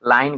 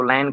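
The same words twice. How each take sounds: First: Said in the usual way. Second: "लाइन" with one ai vowel, as lain; village mispronunciation. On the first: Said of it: "को लाइन कह देते हैं". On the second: Shown as a demonstration. Teacher showing village speech, "लाइन" said as lain. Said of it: "लाइन को लाइन कह देते हैं".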